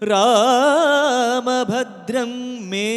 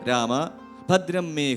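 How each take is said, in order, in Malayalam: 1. വാക്കുകൾ ഇടവേളയില്ലാതെ ഒന്നിച്ചൊഴുകുന്നു. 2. 'രാമ'യ്ക്ക് തൊട്ടുപിന്നാലെ ഒരു ഇടവേളയുണ്ട്. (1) "രാമഭദ്രം എന്നുള്ളത് നമ്മൾ ചേർത്തേ വായിക്കുള്ളൂ" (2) "രാമ അവിടെ നിർത്തി"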